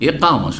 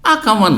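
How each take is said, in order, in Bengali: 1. শব্দটি e স্বরধ্বনি দিয়ে শুরু হয়। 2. শব্দটি a স্বরধ্বনি দিয়ে শুরু হয়। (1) "একামা শব্দটি" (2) "আকামা নয়"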